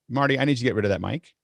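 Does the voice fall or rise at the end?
rises. The voice rises at the end like a question.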